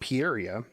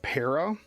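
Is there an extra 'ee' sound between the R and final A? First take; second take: yes; no. First: An extra 'ee' sound comes before the final A. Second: No extra vowel sound comes before the final A. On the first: The speaker calls it wrong. "I also add an I in at the end" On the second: The speaker calls it right. "pronounces it para"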